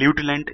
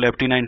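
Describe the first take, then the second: First: The word begins with a 'loo' sound. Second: The word begins with a 'lef' sound. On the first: This follows the spelling. "ल्यूटिनेंट spelling का pronunciation होता है" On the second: This is how people usually say it. "बोलते हैं उसको लेफ्टिनेंट"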